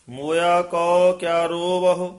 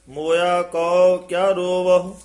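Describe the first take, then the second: Both takes have the same delivery.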